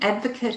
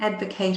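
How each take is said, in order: First: It is pronounced as the noun form. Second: It is pronounced as the verb form. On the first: A person who supports someone. "Advocate is a noun" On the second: To argue on someone's behalf. "Advocate is a verb"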